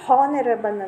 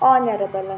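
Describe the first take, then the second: First: The word starts with an audible h sound. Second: The word starts directly with a vowel sound. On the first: The speaker calls it wrong. "ಹಾನರಬಲ್ ಅಲ್ಲ" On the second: The speaker calls it right. "ಆನರಬಲ್ ಅಂತ ಹೇಳ್ತೀವಿ"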